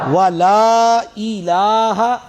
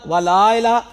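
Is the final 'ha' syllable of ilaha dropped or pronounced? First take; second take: pronounced; dropped. First: The final ha syllable is clearly pronounced. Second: The final ha syllable is dropped. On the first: The speaker calls it right. "वला इलाहा वला इलाहा गैरुक" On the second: The speaker calls it wrong. "वला इला वला इला नहीं"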